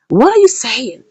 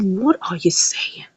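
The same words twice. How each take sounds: First: Said in the usual way. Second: Soft, slow whispered question; stunned whisper. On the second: Retold or imitated. Mother whispers back, stunned, to Flora, slowly. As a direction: breathe it out in disbelief.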